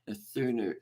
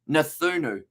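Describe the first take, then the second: First: The middle consonant is a hard 'k' sound. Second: The middle consonant is a 'th' sound. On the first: The speaker calls it wrong. "if I was to pronounce it the way that it looks" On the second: The speaker calls it right. "it's actually pronounced as th rather than the C"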